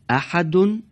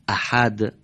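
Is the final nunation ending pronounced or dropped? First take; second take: pronounced; dropped. First: The word ends with a vowel and n sound. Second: The word ends on a silent final consonant. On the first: The reader continues without stopping. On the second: The reader stops on this word.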